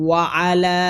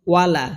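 First: ওয়া আলা split in two, with a fresh আ after ওয়া; correct way. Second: ওয়ালা run together as one word, with no break; wrong way. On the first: Shown as a demonstration. Teacher giving students the correct reading, words separated. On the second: Retold or imitated. Teacher showing the common mistake to students, run together. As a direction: say ওয়ালা quickly as a single word. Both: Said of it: "কিন্তু হবে কি ওয়া আলা".

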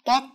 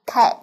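First: Cat said like "két", unaspirated and clipped; the Vietnamese cat; cat with a Vietnamese accent. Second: Cat with an aspirated k and flat a; English cat; native cat. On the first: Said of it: "cách đọc người Việt là". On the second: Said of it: "Cách đọc người bản xứ là". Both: Shown as a demonstration.

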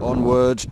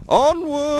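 First: Said in the usual way. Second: "Onward!" called out high and louder; rally yourself like an explorer; rallying cry. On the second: Real, not acted. Vlogger rallying himself on the walk, high excited call.

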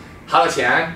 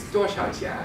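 First: "好多钱?" in lilting Sichuanese; Sichuan dialect. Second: "多少钱?" in crisp standard Mandarin, higher; Mandarin pronunciation. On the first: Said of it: "but in Sichuanhua". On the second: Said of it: "in Mandarin, it's". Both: Shown as a demonstration.

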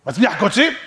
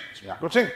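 First: Higher, louder query rising on "קוצים"; raised-voice question ending on "קוצים". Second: Said in the usual way. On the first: Acted. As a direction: ask it, pushing "קוצים" up. Question, then lower answer.

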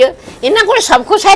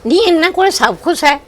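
First: ਕੋਲ pushed up high with a rising indignant tune; emphatic repeat. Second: Said in the usual way. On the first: Acted. Grandmother insisting to daughter-in-law that they have everything, emphatic higher repeat. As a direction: say ਇਹਨਾਂ ਕੋਲ ਸਭ ਕੁਛ ਹੈ again, much higher, rising on ਕੋਲ.

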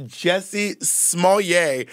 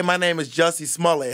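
First: "Smollett" slowly and deliberately as smoll-YAY; mock the "-yay" ending of "Smollett", pitched up; mimicked French-style Smollett. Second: "Smollett" with an English ending, no "yay"; English-style Smollett. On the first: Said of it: "if his name was pronounced". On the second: Acted. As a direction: say "Smollett" as SMALL-it. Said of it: "if that man say".

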